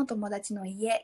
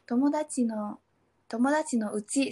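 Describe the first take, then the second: First: "tomodachi no ie", said as the proper version, a little softer; "tomodachi no ie", said as the answer to her mistake; correct phrase. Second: "tomodachi no uchi", said as the learner's mistaken version; "tomodachi no, tomodachi no uchi", said haltingly like the original slip; wrong phrase. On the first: Showing the podcast host the right phrase, "tomodachi no ie". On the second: Retelling her beginner's mistake to a Japanese friend, said as "tomodachi no uchi". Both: Shown as a demonstration. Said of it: "Seharusnya kan".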